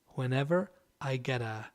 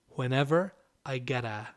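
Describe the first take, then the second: The two takes are said the same way.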